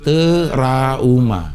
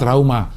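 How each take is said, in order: First: A vowel is inserted between t and r. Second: The word begins with a tight tr cluster. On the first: The speaker calls it right. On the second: The speaker calls it wrong. "Bukan trauma"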